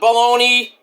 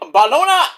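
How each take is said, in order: First: It is said with an English pronunciation. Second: It is said with an Italian pronunciation. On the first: The speaker calls it wrong. "Not Bologna. People are gonna mispronounce it" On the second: The speaker calls it right. "you can't speak Italian like I can"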